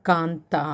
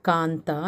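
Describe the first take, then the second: No difference in how they are said.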